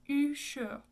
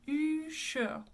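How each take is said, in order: The two takes are said the same way.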